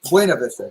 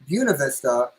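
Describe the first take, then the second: First: The name is said the way it's spelled. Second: The name is said in the local pronunciation. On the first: This is how the written name suggests saying it. "even though it's spelled Buena Vista" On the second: This is how people from the area say it. "pronounced Buena Vista"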